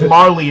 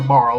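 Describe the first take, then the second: First: The name has two syllables, ending in ee. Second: The name has one syllable, final e silent. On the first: The speaker calls it right. "spelled in a way that would be pronounced Marley in English" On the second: The speaker calls it wrong. "have a habit... calling her Marl"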